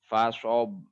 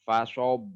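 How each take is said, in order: The two takes are said the same way.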